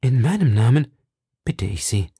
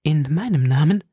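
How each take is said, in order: First: Tender plea. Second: Moved, questioning In meinem Namen with a rise; In meinem Namen asked back with a moved lift; lively emotion. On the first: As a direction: plead gently, tenderly. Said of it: "mit lebhafter Rührung". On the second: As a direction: echo his words, touched and surprised. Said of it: "versetzte Madame Bonacieux mit lebhafter Rührung". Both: Acted.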